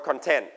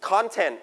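First: ConTENT, weight on the second syllable; stress on second syllable. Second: CONtent, weight on the first syllable; stress on first syllable. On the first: Teacher contrasting two stresses for students, stress on second syllable. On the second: Teacher contrasting two stresses for students, stress on first syllable. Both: Shown as a demonstration. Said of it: "Stress on the first or second syllable".

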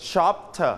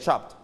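First: "shopper" with the ending spoken out as a full "per"; overpronounced. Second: "shopped" with a light clipped t ending, one syllable; reduced ending. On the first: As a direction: stretch "shopper" so the ending is an extra syllable. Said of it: "ลองออกเสียงดังๆก่อน". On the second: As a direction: soften the end of "shopped" to a faint t. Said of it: "ลดเลเวลลงมาเป็น". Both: Shown as a demonstration.

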